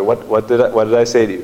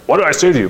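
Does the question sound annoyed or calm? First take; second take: calm; annoyed. First: The question sounds calm and gently encouraging. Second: The question sounds annoyed and irritated. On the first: The child is being helped to think. The speaker calls it right. "But just like trying to help him think" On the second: The child is being scolded. The speaker calls it wrong. "I'm not saying this with annoyance, like"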